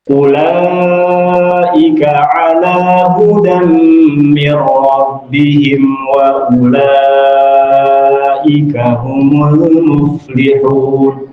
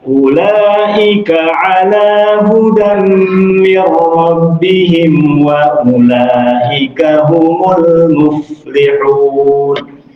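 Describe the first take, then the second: First: The drawn-out vowel is held for four counts. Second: The drawn-out vowel is held for two counts. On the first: The speaker calls it right. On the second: The speaker calls it wrong. "harusnya empat dibaca dua"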